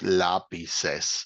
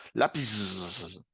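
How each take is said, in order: First: "lápices" slow, with a clear "ces" ending; careful teacher's "lápices", slowly split to show the ending; E before final S. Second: "Lápiz" with a long drawn-out hissing S; failed plural, "Lápiz" trailing into endless S; wrong added S. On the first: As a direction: sound out "lápices" with an E between the two S sounds. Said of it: "Agregamos una E en el medio". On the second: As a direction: drag the end of "Lápiz" into a long sss. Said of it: "no le podemos colocar simplemente la S al lado". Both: Shown as a demonstration.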